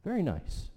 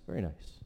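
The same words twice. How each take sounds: First: Said in the usual way. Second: A quiet murmured aside after the first; soft low echo. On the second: Real, not acted. Teacher echoes his praise to himself, low and soft. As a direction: repeat it much lower and softer, to yourself.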